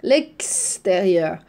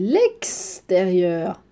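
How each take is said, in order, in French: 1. Le x se prononce différemment du x dans exemple. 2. Le x se prononce différemment du x dans exemple.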